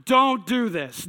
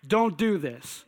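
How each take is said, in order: First: "Don't do this" slowed, with weight on "Don't"; emphatic warning. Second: Said in the usual way. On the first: Shown as a demonstration. Warning the audience not to copy him, slow and emphatic. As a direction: drive the warning home slowly. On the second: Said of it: "By the way".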